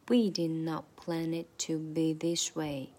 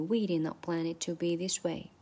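First: The sentence is spoken slowly and deliberately. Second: The sentence is spoken at a normal, quick speed. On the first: "慢速版" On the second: "长速版"

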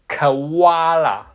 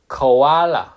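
First: The middle vowels split apart, with 'wa' and stress there. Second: The middle vowels blend into one smooth sound. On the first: This is how Australians say it. "把那个o 这个o 这个发音它发成了awa，而且把这个哇，这两个音符的拆开，然后变成这个重音放在这个o 的字的中间，它发成是koala" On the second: This is the standard dictionary pronunciation. "如果按照音标来说，它应该叫koala"

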